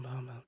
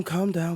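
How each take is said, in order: First: Much softer, trailing calm down; nearly inaudible self-calming; fading out. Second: Said in the usual way. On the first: Real, not acted. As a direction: let it die away as you settle.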